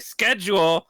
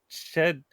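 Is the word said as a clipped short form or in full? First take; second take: full; clipped. First: The word is said in full with all syllables. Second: The word is clipped to one short syllable. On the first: The speaker calls it right. "I'm going to pronounce it correctly" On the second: The speaker calls it wrong. "There's no way to read that that doesn't sound awful"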